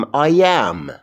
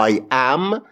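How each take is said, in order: First: "I am" slowly run together as one word; linked words. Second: I AM as two separate words; separated words. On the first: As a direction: glide from I straight into am in "I am". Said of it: "کلمه ها رو به هم میچسبونم". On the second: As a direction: say "I am" word by word, unjoined. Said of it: "به جای اینکه بگم". (تلفظ جداجدای I am) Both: Shown as a demonstration.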